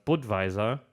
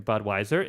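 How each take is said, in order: First: "Budweiser" said as BOOD-vy-zar; Czech pronunciation. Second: Said in the usual way. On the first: Shown as a demonstration. Host names the Czech beer, "Budweiser" as BOOD-vy-zar. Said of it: "is a Czech beer". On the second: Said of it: "but not the American Budweiser".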